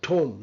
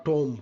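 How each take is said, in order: First: "tome" with an airy t and silent b; modelled pronunciation. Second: "tomb" said the mistaken way; wrong pronunciation. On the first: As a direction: say "tome" as THOHM. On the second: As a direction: say "tomb" with a hard, unaspirated t. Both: Shown as a demonstration. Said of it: "not tomb".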